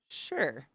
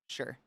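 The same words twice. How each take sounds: First: It is said with a sassy, sarcastic edge. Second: It is said flatly, without any enthusiasm. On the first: The speaker does not believe the other person. "unless I'm actually being sassy" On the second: The speaker does not really want to go. "that doesn't sound like I'm excited"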